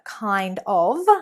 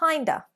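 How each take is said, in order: First: The 'of' is pronounced fully as a separate word. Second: The 'of' is reduced to a short 'uh' sound. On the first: "Instead of kind of" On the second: "we've replaced of with an uh sound, the schwa"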